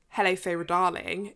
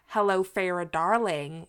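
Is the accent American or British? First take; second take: British; American. First: It is said in a posh British accent. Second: It is said in an American accent. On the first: "in like a very well-to-do British accent" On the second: "like in an American accent? Sorry, I apologize for my terrible American accent there"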